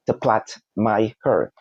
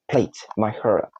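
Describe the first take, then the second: First: "plait" as "plat" in the phrase; short a on "plait"; correct pronunciation. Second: "plait" said as "plate"; long ay on "plait"; mispronunciation. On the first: Teacher giving a salon example, correct pronunciation. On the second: Teacher showing the error in the salon example, mispronunciation. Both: Shown as a demonstration.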